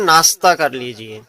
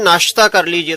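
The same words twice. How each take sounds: First: The middle consonant is an 's' sound. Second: The middle consonant is a 'sh' sound. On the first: The speaker calls it wrong. "बहुत सारे लोग कहते हैं" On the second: The speaker calls it right. "अगर कहते हैं कोई कि"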